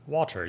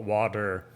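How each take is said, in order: First: WATER with a clearly pronounced T; crisp T in WATER; British-style water. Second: Blur the T in WATER to a D; American D-sound WATER; jumbled American middle. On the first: Retold or imitated. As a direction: say WATER with a careful T. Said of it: "you pronounce it way more". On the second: Shown as a demonstration. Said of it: "We just kinda jumble the middle".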